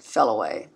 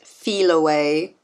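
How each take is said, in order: First: The first syllable sounds like 'fell'. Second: The first syllable sounds like 'fee'. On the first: This is the way the speaker chooses to say it. "I'm going to pronounce it" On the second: This is how many other people say it. "a lot of people pronounce it"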